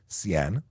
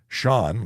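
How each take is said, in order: First: The name starts with a different consonant sound. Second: The name starts with an 'sh' sound. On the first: The speaker calls it wrong. "I get Cian" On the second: The speaker calls it right. "like Sean Connery, the legend, should be easy"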